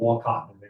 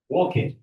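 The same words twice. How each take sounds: First: The last syllable sounds like 'cot'. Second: The last syllable sounds like 'kit'. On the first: The speaker calls it wrong. "I kept calling it Wolcott, not, not a cot" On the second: The speaker calls it right. "it's a kid. Wolcott, that's how they pronounce it"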